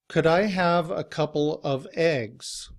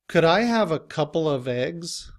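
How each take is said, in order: First: Each word, including 'of', is said fully and separately. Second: 'Couple of' runs together quickly with a schwa. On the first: "Here in citation form" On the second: "we say it quickly all together"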